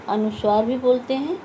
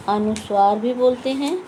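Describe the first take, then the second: No difference in how they are said.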